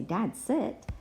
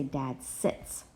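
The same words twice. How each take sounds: First: "Dad, sit." said as the wrong version, no s on "sit"; "Dad, sit." as the form to avoid; wrong form without s. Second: "Dad sits." with the s ending on "sits"; "Dad sits." as the correct form. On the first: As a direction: model the mistake, "sit" with no ending. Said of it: "I wouldn't say". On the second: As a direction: model the right version, finish "sits" on its s. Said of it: "I would say". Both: Shown as a demonstration.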